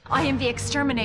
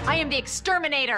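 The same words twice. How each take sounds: First: It is said flatly, without conviction. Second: It is said firmly, with conviction.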